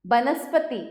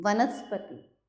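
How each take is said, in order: First: वनस्पति as banaspati. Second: Said in the usual way. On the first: Shown as a demonstration. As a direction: open वनस्पति on b. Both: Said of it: "नहीं, वनस्पति".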